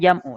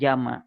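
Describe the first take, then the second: First: The word ends with a 'u' vowel. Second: The word ends with an 'a' vowel. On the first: The speaker calls it right. "Dibacanya jam'u ya" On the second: The speaker calls it wrong. "bukan jama"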